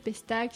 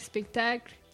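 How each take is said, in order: First: The word starts with 'pes', dropping a sound. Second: The word starts with 'spec', with every sound. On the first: It is how small children say it. The speaker calls it wrong. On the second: It is the standard adult form. The speaker calls it right.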